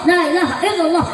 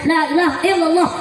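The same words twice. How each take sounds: First: Every syllable of the phrase is pronounced clearly. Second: Every syllable of the phrase is pronounced clearly.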